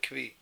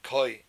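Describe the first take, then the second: First: The word is said with a v, like 'kvee'. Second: The word is said without a v, like 'koy'. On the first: "It's called a kvi" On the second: "Some people pronounce it koi"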